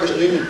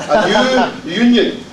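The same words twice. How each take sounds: First: "a union" run together quickly, lower and offhand. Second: "new union" drawn out at half speed; slow, deliberate. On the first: Speaker shows delegates the quick way fails, hurried and low. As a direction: rush "a union" so the words blur into one. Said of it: "If I say it quick". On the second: Speaker jokes that Glaswegians struggle with vowels, slow and careful. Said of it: "I need to say this slowly". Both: Shown as a demonstration.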